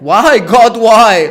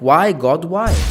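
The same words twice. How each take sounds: First: It is said jokingly, like Joey. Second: It is said seriously, in a sincere tone.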